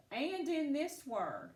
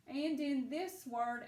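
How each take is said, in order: Both takes have the same delivery.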